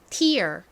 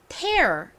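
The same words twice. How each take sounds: First: The vowel sounds like the word 'ear'. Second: The vowel sounds like the word 'air'. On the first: It means a drop from the eye. "tear에서처럼 ear로" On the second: It means to rip something. "air 이라는 발음으로 쓰였죠"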